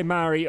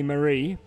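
First: Mari said MAH-ree, stress on the first syllable; Mari pronunciation. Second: Marie said muh-REE, stress on the end; Marie pronunciation. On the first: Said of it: "You say Mari". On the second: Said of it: "I'm gonna say Marie". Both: Shown as a demonstration.

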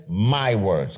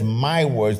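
First: "My" leaned on, falling; "My words" with weight on "My"; stress on my. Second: "My" pressed, falling tune; "My words" with weight on "My"; stress on my. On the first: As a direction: press the word "My". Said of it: "Notice he says". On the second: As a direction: lean into "My". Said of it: "if he says". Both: Shown as a demonstration.

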